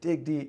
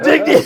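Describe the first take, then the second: First: It is said in a mocking, dismissive tone. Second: It is said in an earnest, intense tone.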